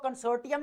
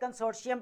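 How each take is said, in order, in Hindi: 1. बीच का व्यंजन 't' की तरह सुनाई देता है। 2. बीच का व्यंजन 'sh' की तरह सुनाई देता है। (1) "इसको कंसोर्टियम नहीं पढ़ेंगे" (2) "कंसोर्शियम पढ़ेंगे इसको"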